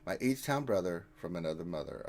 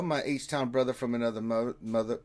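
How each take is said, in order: First: Careful retry. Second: Fast, stumbling run at the phrase; rushed tongue twister. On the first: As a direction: say it cleanly, word by word. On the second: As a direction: rattle it off and trip on it. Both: Shown as a demonstration. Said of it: "I had to say that five times fast".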